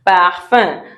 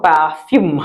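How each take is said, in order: First: Parfum with a nasal ending, no final sounds; French parfum. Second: Parfume with a full English "fume" ending; wrong English-style parfume. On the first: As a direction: drop the last sounds of Parfum. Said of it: "we don't pronounce the last sounds". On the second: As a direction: say parfume sounding the final sounds. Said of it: "it's not parfume". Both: Shown as a demonstration.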